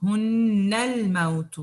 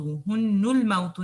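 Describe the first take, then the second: First: هُنَّ with short a vowel and doubled n; correct recitation. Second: هُنُّ said with u ending; wrong reading. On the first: Teacher to class: recite هُنَّ correctly, ending in a. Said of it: "هُنُّ الْمَوْتُ نہیں ہے". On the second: Teacher to class: shows the wrong هُنُّ reading. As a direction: mispronounce هُنُّ with u, as the error. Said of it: "نہیں ہے". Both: Shown as a demonstration.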